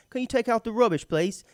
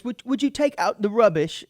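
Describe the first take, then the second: First: Lightly higher mock English request; British accent. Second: Light mock British politeness, a bit higher; British accent. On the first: Host replaying the roommate's trash request, mock British accent. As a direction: make the chore sound jovial in a British accent. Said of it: "less intense sounding way". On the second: Host mimicking a roommate's polite British request, mock British accent. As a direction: ask it jovially in a put-on English accent. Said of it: "talk to his roommates".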